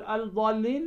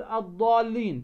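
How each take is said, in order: First: Wrong "الضالين" with an audible l before ض; counter-example "الضالين", article's l pronounced; unassimilated lam. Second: "الضالين" as ad-daalleen, doubled ض and no l; corrected "الضالين", first l hidden; assimilated lam. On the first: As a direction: say "الضالين" as al-daalleen, questioning. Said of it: "لا، تقول الضالين". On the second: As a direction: merge the lam into a heavy ض in "الضالين". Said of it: "فأنت أخفيت ماذا؟". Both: Shown as a demonstration.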